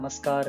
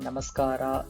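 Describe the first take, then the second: First: The word ends abruptly on the r consonant. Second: The word ends on a plain open a vowel. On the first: "நமஸ்கார் இல்ல நமஸ்காரா அது மாரி தேவையில்ல" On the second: "நமஸ்கார் இல்ல நமஸ்காரா அது மாரி தேவையில்ல"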